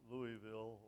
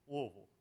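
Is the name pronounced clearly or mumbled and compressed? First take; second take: clearly; mumbled. First: The name is said with every syllable clearly pronounced. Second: The name is mumbled and compressed, thick-tongued. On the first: A non-native of the city says it this way. The speaker calls it wrong. "not Louisville or Louisville" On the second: A native of the city says it this way. The speaker calls it right. "If it sounds like you got a rock in the middle of your tongue, it's you're saying it right"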